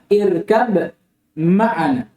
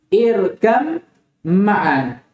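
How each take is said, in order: First: A distinct b sound comes before ma'ana. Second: The b merges into a lengthened m sound. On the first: This is the original form of the words. "Asalnya ini apa?" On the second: This is how it is read with assimilation. "Tapi ba diidgham ke mana? Mim menjadi"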